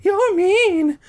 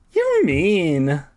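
First: Very high, loud squeaky woman voice; Carolyn voice. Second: Carolyn voice. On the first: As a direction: push up into shrill falsetto. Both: A narrator's reading. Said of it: "she told Ernesto".

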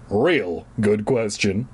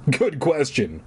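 First: Slow, dry emphasis on real; wry, drawn out. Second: Said in the usual way. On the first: Shown as a demonstration.

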